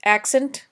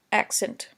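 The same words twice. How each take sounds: First: "Accent" said with a rising tune; teacher stressing "Accent". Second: Teacher repeating "accent" softly; falling soft accent. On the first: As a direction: lift the word "Accent" up at the end. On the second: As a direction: drop "accent" down quietly. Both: Shown as a demonstration.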